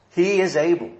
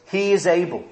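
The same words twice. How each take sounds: First: "He" stressed, falling firmly. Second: "is" stressed, falling firmly. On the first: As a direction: lean on "He" and let the line fall. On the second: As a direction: lean hard on "is". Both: Shown as a demonstration. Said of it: "the emphasis in that verse on the words".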